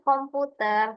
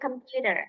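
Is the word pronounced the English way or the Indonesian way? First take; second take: Indonesian; English. First: It is said with an Indonesian pronunciation. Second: It is said with an English pronunciation. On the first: The speaker calls it wrong. "bukan komputer, tapi komputer itu bahasa Indonesia" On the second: The speaker calls it right. "kalau in English pronunciation-nya itu computer"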